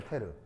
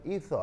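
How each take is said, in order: First: It is said as Japanese-style 'eteru'. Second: It is said as English-style 'ether'. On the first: "일본말로 발음하면 에테르" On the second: "영어식 발음은 있어"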